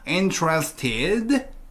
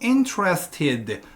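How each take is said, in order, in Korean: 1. 마지막 음절에서 음높이가 올라갑니다. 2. 끝에서 음높이가 살짝 내려갑니다. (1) "콤마가 있으니까 interested, ted, ted 라고 끄듬을 올려주시라" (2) "원래대로라면 interested 살짝 내려올 거거든요"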